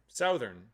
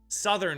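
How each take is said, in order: First: The first vowel sounds like in 'south'. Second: The first vowel is short, like in 'sun'. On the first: This follows the spelling of the word. The speaker calls it right. "That's how the word is spelt" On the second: This is how most people say it. The speaker calls it wrong. "as if there's no O in there"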